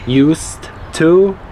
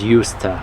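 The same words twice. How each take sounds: First: Both words are said fully and separately. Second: The words blend into one reduced form.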